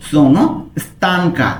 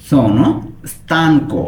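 First: "stanca" ending clearly in a; feminine ending. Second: "stanco" ending clearly in o; masculine ending. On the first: Teacher showing viewers the female form, final a. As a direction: sono "stanca", open final a for a female speaker. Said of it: "আর যদি আমি মেয়ে হই". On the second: Teacher showing viewers the male form, final o. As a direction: sono "stanco", round final o for a male speaker. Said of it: "আমি যদি ছেলে হই তখন আমি বলবো sono stanco". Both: Shown as a demonstration.

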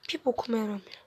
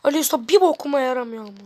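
First: Whisper. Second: Said in the usual way. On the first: Real, not acted. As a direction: whisper Bir bokuma yaramıyor under the breath. Aynı sözü fısıldayarak tekrar. (fısıltıyla söyleniyor)

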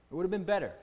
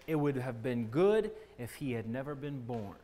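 First: "better" said higher and held; stress on better. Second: Said in the usual way. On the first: Real, not acted. Preacher correcting his quote, stress on "better".

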